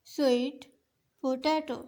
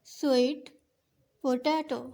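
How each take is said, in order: Both takes have the same delivery.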